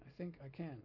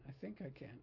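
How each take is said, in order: First: The emphasis gives a chugging train-like rhythm. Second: The emphasis gives no chugging train-like rhythm. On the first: The speaker calls it right. "Doesn't that sound like a train engine?" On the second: The speaker calls it wrong. "I was taught wrongly to emphasize it like"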